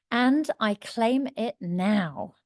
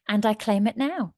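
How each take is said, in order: First: Slow, deliberate affirmation, word by word; emphatic affirmation. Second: Said in the usual way. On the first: Shown as a demonstration. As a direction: draw out each word with conviction. Repeats affirmation slowly for emphasis.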